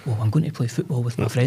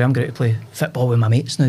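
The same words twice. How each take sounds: First: Careful, more measured retold reply; corrected, proper speech. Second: Casual Scots schoolboy slang delivery; gallus and cool. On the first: Chastened boy rephrasing for his mum, carefully proper. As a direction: say it properly, minding your words for mum. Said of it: "you can't speak like that". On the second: Retold or imitated. Boy telling his mum his football plans, gallus and cool. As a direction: toss it off casually, like a cocky lad. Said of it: "you spoke 'cause you were gallus and cool".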